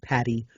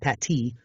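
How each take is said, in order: First: The middle consonant is a D sound. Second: The middle consonant is a T sound. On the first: The speaker calls it right. "It's with the D's is how you properly say that" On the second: The speaker calls it wrong.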